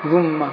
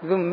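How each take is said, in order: First: The word ends with a short a vowel. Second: The word ends with a short i vowel. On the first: "رواية الفتح ذم" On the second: "ثالثا الكسر هو الأصل في التخلص من تقاء ساكنين"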